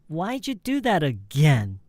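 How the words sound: The pitch drops down at the end. The action was done a second time. The speaker calls it wrong. "If it drops"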